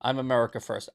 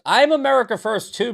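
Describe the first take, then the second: First: Said in the usual way. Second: Loud high sarcastic echo of "I'm America first too". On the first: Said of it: "reading chat". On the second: Shown as a demonstration. Streamer sarcastically echoes a chat comment, loud and high. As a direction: toss the chat's line back loud and mocking. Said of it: "when I'm being sarcastic".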